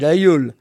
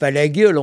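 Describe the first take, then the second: First: No G sound is heard between the vowels. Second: A G sound is heard between the vowels. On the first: The speaker calls it right. "on dit l'Aiolo" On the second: The speaker calls it wrong. "on ne dit pas"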